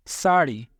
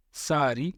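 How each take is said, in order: First: Said in the usual way. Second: सारी with a plain r, no retroflex flap; Arabic-style सारी. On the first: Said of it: "री के जगह पे री". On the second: Shown as a demonstration. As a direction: tap a simple r in सारी. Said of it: "री के जगह पे री का इस्तेमाल".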